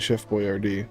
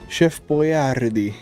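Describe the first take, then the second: First: The name is said with an American accent. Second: The name is said with an Italian accent. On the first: The speaker calls it wrong. "It's not actually" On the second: The speaker calls it right. "as pronounced in the Italian accent"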